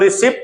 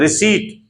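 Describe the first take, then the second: First: The word is said with a p sound. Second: The word is said without a p sound. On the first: The speaker calls it wrong. "इसको रिसिप्ट नहीं बोलना चाहिए" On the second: The speaker calls it right.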